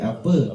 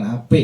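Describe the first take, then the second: First: The word ends with an 'a' vowel sound. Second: The word ends with an 'e' vowel sound. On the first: The speaker calls it right. "tapi apa" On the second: The speaker calls it wrong. "bukan ape"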